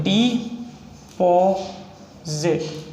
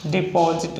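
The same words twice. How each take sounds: First: deposit drawn out very slowly; slow dictation. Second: Said in the usual way. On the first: Shown as a demonstration. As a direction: stretch deposit out while writing it. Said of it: "plain take follows". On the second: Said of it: "slow take before".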